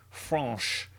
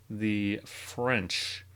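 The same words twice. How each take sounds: First: French said the French way, FRAHNSH with a nasal vowel; mock French pronunciation of French; fake French accent. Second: Said in the usual way. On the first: Shown as a demonstration. Teacher hams up a fake French accent for French. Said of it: "Sorry, my fake French accent". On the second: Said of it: "my fake French accent".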